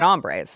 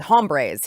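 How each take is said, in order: First: The h at the start is silent. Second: The h at the start is pronounced. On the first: The speaker calls it right. "There is an H in there, and he didn't" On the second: The speaker calls it wrong. "He knew not to say hombres"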